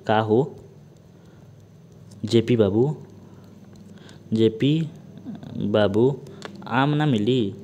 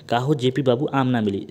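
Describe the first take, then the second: First: Word by word with long pauses; slow dictation. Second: Said in the usual way. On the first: Shown as a demonstration. Teacher dictating the mnemonic to students, slow and spaced. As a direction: dictate each word slowly so students can write. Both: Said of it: "इसको लिख लीजिए".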